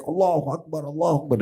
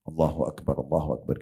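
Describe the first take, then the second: First: High-pitched mock yell, held back in volume; imitated shout. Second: Low, soft takbir; quiet dhikr. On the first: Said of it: "dia teriak". (meniru teriakan takbir bernada tinggi) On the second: Shown as a demonstration. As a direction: murmur it gently as a private remembrance. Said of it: "kita zikir pelan sudah cukup". (zikir pelan bernada rendah)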